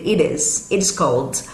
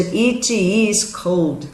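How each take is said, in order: First: "It is cold" with the T softened to a light D, "ed is"; flapped T in it is. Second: "It is cold" said slowly, every sound apart, T fully released; slow careful take with a hard T; T said as a clear T. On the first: Teacher shows students the D sound in "It is". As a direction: link "It is" so the T turns into a D. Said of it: "vai virar um leve som de D". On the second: Teacher contrasts a careful take with the linked one. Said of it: "Ao invés de". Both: Shown as a demonstration.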